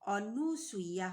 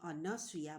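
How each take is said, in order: First: The second syllable has a 'u' vowel. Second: The second syllable has an 'a' vowel. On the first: The speaker calls it wrong. "ହେବନି" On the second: The speaker calls it right. "ହେବ"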